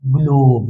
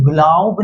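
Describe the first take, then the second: First: ग्लोब with a long, pure 'oh'; true long O. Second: ग्लॉब mispronounced with 'aw' instead of long O; wrong short-vowel pronunciation. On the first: Teacher giving pupils the magic E reading, ग्लोब with long 'oh'. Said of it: "ओ को तो ओ ही बोलेंगे". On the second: Teacher showing pupils what silent E rules out, ग्लॉब with open 'aw'. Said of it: "इसीलिए ये ग्लॉब नहीं होगा". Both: Shown as a demonstration.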